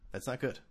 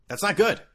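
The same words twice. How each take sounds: First: "That's not good" said softly, rising on "good"; quiet. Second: "That's not good" said higher and louder; loud dismay. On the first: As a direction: mutter it softly to yourself. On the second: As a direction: stress "good" with alarm. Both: Shown as a demonstration.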